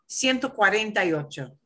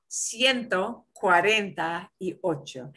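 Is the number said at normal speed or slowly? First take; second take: normal; slow. First: It is said at a normal, quicker speed. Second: It is said slowly and carefully.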